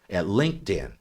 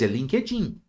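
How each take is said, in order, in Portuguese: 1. É pronunciada com pronúncia inglesa. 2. É pronunciada com pronúncia portuguesa. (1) "se eu estiver conversando em inglês" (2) "estou conversando em português"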